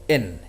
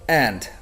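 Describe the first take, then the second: First: The d is dropped and the vowel reduced. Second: The word is said in full with the d. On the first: "sometimes even in" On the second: "A common example is and"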